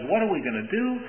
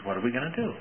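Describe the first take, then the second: First: Higher, alarmed, panicky question; a servant crying out in fear at the hit squad; mock terrified cry. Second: Said in the usual way. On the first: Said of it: "he cries out and he says". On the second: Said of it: "he says".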